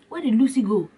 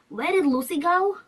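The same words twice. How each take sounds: First: It is said in the mom's voice. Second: It is said in the movie character's voice.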